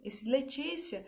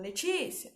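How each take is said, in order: First: Said in the usual way. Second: Mild call of a name with a rising end; lightly voiced mother calling out Letícia. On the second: A mother calling her daughter Letícia, with a mild rising call. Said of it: "a minha mãe me chamando".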